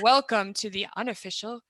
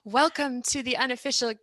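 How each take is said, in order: First: The voice is lowered to a deeper pitch. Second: The voice is at its ordinary, higher pitch. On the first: The speaker calls it right. "you got to lower your voice too" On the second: The speaker calls it wrong. "No, see, I can't do it"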